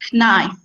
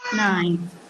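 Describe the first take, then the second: First: The word begins with a pronounced K sound. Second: The word begins with an N sound, no K. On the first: The speaker calls it wrong. "you don't pronounce knife as knife. No, it's wrong" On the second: The speaker calls it right. "It's silent K. It should be nine"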